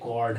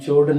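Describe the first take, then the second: First: The word starts with a k sound. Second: The word starts with a ch sound. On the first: The speaker calls it right. "ये कॉर्ड है" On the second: The speaker calls it wrong. "लेकिन चोर्ड नहीं है"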